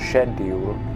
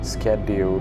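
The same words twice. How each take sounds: First: It is said with a British pronunciation. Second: It is said with an American pronunciation. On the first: "we use the British pronunciation, which is schedule" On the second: "but the Americans call it schedule"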